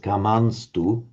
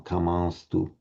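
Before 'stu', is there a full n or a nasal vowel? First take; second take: full n; nasal vowel. First: A full n consonant is said before 'stu'. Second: A nasalized vowel is said before 'stu'. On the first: "the most correct is probably what the one that Marco just told us" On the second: "the alternative that you will hear from respectable and learned chanters is, is a, a, a nasalized vowel"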